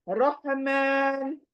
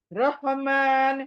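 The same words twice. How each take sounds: First: Said in the usual way. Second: रहमान slow with a full-mouth ra; heavy Arabic ra. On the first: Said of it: "रहमान Urdu में बोलते हैं हम". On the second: Shown as a demonstration. Teacher contrasting Arabic with Urdu. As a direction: say रहमान with a thick rounded ra. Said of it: "रॉ को हमेशा पुर पढ़ना चाहिए".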